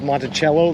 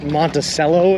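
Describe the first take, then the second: First: The name is said with the original pronunciation. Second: The name is said with the local Midwestern pronunciation. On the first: This is how the name is supposed to sound. The speaker calls it right. "the way it's supposed to be pronounced" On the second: This is how people in the region say it. The speaker calls it wrong. "here in Indiana and Illinois, they pronounce it"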